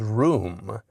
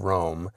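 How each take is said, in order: First: The vowel is a high oo sound. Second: The vowel is a mid oh sound. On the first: "as Room" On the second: "the city of Rome"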